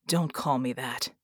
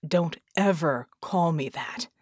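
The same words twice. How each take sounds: First: Low, understated snap; a touch of anger, kept low; snapped. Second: Snapped. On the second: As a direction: warn them off, leaning on "ever". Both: A narrator's reading. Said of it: "they snapped".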